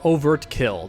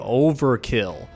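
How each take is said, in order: First: A t sound is heard in the middle. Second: No t sound is heard in the middle. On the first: "depending on how you want to pronounce it" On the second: "I believe it's always said as Overkill"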